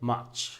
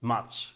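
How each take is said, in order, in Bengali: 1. এটা ব্রিটিশ উচ্চারণে বলা। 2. এটা ব্রিটিশ উচ্চারণে বলা।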